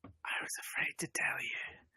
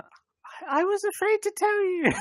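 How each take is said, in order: First: Slow, hushed whisper. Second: Very high put-on girl voice; girl's voice. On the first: Acted. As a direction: whisper it slowly, very softly. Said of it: "she whispers". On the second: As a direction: squeak it out as a pretend girl. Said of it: "do it in a girl's accent".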